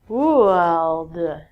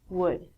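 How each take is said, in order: First: The L sound is pronounced in the word. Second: The L sound is silent in the word. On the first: The speaker calls it wrong. "You look at this word and go" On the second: The speaker calls it right. "All of these L's are silent. So it sounds like"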